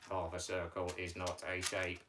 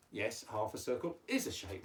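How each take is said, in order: First: Low monotone puppet objection; puppet Mike's voice. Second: "is" leaned on to contradict; firm correction with weight on "is"; stress on "is". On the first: Pretend. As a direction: object on one low, level note. Teacher voices puppet Mike. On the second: Real, not acted. Teacher corrects the puppet.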